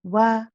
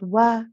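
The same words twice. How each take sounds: No difference in how they are said.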